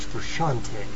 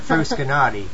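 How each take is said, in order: First: The name is pronounced in a French-like way. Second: The name is pronounced in a plain English way. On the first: The speaker calls it right. "you got to say it's like French" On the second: The speaker calls it wrong. "Not Frusciante"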